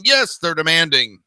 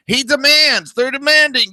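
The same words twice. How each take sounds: First: Yes hit hard and dropped sarcastically, then they're demanding said flatly; sarcastic stress on yes. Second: Mock pompous voice pitched far higher; ridiculing, squeaky parody of leaders; mocking whine. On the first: Retold or imitated. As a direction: lean on yes with a falling, scornful tone. Sarcastic follow-up to the mock take. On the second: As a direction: sneer it out in a high, mocking squeal. Mocking world leaders' demands.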